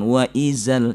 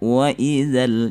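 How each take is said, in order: First: The 'dh' sound has audible escaping air. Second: The 'dh' sound is clean, without extra air. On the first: The speaker calls it wrong. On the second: The speaker calls it right.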